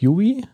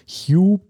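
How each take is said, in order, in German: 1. Das Wort wird zweisilbig gesprochen. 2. Das Wort wird einsilbig gesprochen.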